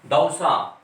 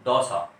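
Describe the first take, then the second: First: दौसा with a clear a-u glide; correct au. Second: दौसा said with a plain o instead of au; wrong o sound. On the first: Teacher giving students the right दौसा. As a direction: open दौसा as da-u-sa. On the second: Teacher showing students the common wrong दौसा. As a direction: flatten दौसा to dosa. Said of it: "लेकिन इसको बोलते क्या है". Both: Shown as a demonstration.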